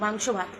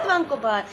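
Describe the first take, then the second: First: The words are pronounced clearly with a normal s sound. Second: The words are pronounced in a lisping, babyish way. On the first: The speaker calls it right. "এবার ভালো করে বল কিন্তু" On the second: The speaker calls it wrong. "তুমি বলছো মাংকো ভাত"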